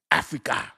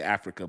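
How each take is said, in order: First: Playful put-on voice on "Africa"; "Africa" in a jokey character voice. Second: Said in the usual way. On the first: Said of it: "why I made that voice". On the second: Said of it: "when I had to say Africa".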